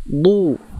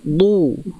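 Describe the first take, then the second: The two takes are said the same way.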